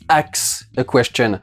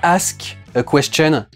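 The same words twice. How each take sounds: First: The word 'ask' has a vernacular mispronunciation. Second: The word 'ask' has its standard pronunciation. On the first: "ils disent ... des défauts de prononciation comme ça" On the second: "ils disent pas"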